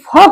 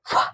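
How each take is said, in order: First: The consonant is followed by a short vowel. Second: The consonant is said alone without a vowel. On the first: The speaker calls it wrong. "फ में अ मिला हुआ हो जाएगा" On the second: The speaker calls it right. "आधा फ बोलने के लिए उसका आवाज निकालेंगे"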